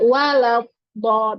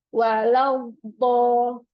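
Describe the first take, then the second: First: The consonant is cut off with a hard stop. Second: The consonant is drawn out in a continuous flow. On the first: The speaker calls it wrong. "bukan out kayak walau bo biasanya kan seperti itu" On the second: The speaker calls it right. "maka dia pasti akan mengalir"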